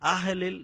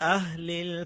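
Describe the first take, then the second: First: The first sound is cut off with a jolt. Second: The first sound is held and flows smoothly. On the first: The speaker calls it wrong. "ছাড়লে আহলিল এটা ধাক্কা হয়ে যাবে" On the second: The speaker calls it right. "আহ হাটা ধরবেন ছাড়বেন না"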